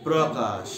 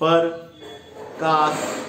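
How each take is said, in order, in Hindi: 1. ये शब्द 'pra' से शुरू होता है। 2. ये शब्द 'par' से शुरू होता है, एक स्वर जोड़कर। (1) "वो होता क्या है? प्रकाश" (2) "हम लोग क्या करते हैं?"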